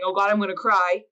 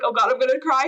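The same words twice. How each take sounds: First: Said in the usual way. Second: Slightly raised, dreading voice; a touch of alarm, lightly acted; mock alarm at crying. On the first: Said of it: "spend time with yourself saying". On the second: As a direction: act out mild panic at oncoming tears. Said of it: "we're taught so much to be like".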